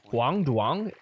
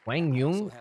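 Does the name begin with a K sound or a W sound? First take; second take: K sound; W sound. First: The name begins with a K sound. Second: The name begins with a W sound. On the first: The speaker calls it wrong. "I've been butchering that" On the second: The speaker calls it right. "as they now pronounce it"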